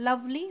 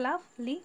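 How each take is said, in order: First: Said in the usual way. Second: "লাভ, লি" as two separate beats; two-syllable split. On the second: Shown as a demonstration. Teacher dividing lovely for students, "লাভ, লি" said piece by piece. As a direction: break "লাভ, লি" with a small pause before লি. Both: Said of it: "দুই ভাগে ভাগ করা যায়".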